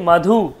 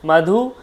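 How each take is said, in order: No difference in how they are said.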